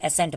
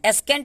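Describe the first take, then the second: First: No k sound is pronounced after the s. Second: A k sound is pronounced after the s. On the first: The speaker calls it right. "एसेंट पढ़ते हैं" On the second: The speaker calls it wrong. "एस्केंट हम लोग नहीं ना पढ़ते हैं इसको"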